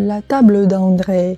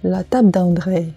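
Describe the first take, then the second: First: The consonant and mute e are fully pronounced. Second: The consonant and mute e are dropped. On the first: The speaker calls it wrong. "не" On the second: The speaker calls it right. "В разговорной беглой речи часто «э» немой выпадает не один, а с соседним согласным"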